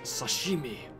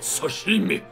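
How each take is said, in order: First: It is said plainly in an ordinary accent. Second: It is said in an intense, exaggerated Japanese accent.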